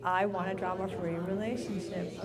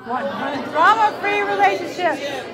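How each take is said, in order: First: Said in the usual way. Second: High, very loud dramatic declaration. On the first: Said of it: "now say it really loud with drama". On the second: Shown as a demonstration. Speaker leading the room in a chant, loud and dramatic. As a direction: shout it out with drama. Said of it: "say it really loud with drama".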